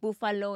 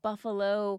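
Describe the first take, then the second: First: The word is said with a non-native accent. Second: The word is said in standard American pronunciation. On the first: "made fun of me because of my accent, saying words like buffalo" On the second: "instead of buffalo"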